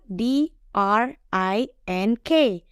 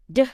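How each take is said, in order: First: Each letter is said by its alphabet name. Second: Each letter is said as its sound. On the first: "Nggak ada kan drink sama sekali kedengerannya" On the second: "Jadi makanya pakai phonics"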